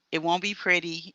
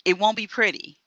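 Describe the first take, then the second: First: Said in the usual way. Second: "won't" pushed high and hard; stress on won't. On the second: Real, not acted. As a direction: hit "won't" with a raised pitch.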